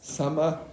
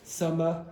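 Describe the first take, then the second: Both takes have the same delivery.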